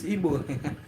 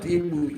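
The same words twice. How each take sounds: First: "Igbo" said slowly and softly as ee-boh; correct Igbo pronunciation. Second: "Igbo" said as ee-boo, drawn out; mispronounced Igbo. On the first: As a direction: end "Igbo" on a long oh. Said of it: "It's Igbo". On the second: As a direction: say "Igbo" slowly with an oo ending. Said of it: "No, not Igbo". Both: Shown as a demonstration.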